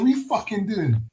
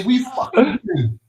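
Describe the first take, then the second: First: Lighter take, a bit high; British accent demo. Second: Slow, high fake British line; British accent demo. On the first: Friend repeating the line for them to copy, softer mock accent. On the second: Friend showing the others the line to copy, slow and high. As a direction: drag it out high in a mock accent. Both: Shown as a demonstration.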